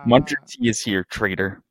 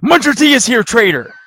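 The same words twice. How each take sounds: First: It is read in a flat, plain way. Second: It is read with strong, forceful emphasis.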